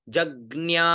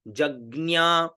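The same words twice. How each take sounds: Both takes have the same delivery.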